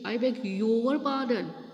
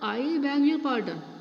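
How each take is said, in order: First: The stress is on "your". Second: The stress is not on "your".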